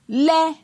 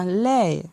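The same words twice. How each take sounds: First: The syllable is said on a high tone. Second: The syllable is said on a falling tone. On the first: "Ton haut" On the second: "un ton descendant"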